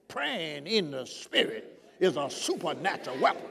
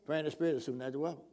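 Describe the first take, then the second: First: The sentence is said with strong, vigorous energy. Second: The sentence is said flatly with little energy. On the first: The speaker calls it right. "see your heart got to hear you saying it with vigor" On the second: The speaker calls it wrong. "Not just, you know"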